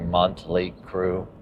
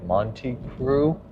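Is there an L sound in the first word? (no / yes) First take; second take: yes; no. First: The first word has an added L sound. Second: The first word has no L sound. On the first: "I always had an L" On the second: "I think Monty Crew"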